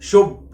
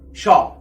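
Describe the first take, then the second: First: The vowel is long, like oo. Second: The vowel is short, like ah. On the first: The speaker calls it wrong. "ما قلتش شوب" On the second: The speaker calls it right. "شورت او"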